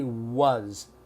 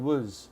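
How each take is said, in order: First: The word is said carefully with a full vowel. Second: The word is said loosely with a reduced vowel. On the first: The speaker calls it wrong. "but we don't say was" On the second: The speaker calls it right. "We say was"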